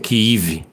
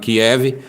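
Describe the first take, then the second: First: The name is said in its Ukrainian form. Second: The name is said in its Russian form. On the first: This is the form Ukrainians prefer. "os ucranianos parece que preferem a pronúncia Kiev" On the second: This is the form Russians use. "que os russos gostam de chamar de Kiev"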